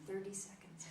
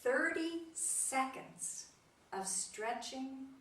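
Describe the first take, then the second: First: "Thirty seconds" repeated softly; soft, savouring "Thirty seconds"; quiet echo. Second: "Thirty seconds" slow, "Thirty" lifted high; drawn out "Thirty seconds", high on "Thirty"; slow emphasis. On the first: Shown as a demonstration. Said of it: "Isn't that inspiring". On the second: Retold or imitated. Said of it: "he made this quote".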